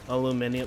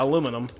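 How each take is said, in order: First: The word is said with five syllables. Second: The word is said with four syllables. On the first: The speaker calls it wrong. "British people, what do you guys say?" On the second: The speaker calls it right. "that's how it's pronounced"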